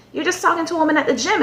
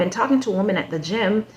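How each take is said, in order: First: Much higher and fast, disbelieving; incredulous repeat. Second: Said in the usual way. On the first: Real, not acted. Repeating his excuse to viewers, incredulous and fast. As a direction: throw it back in disbelief.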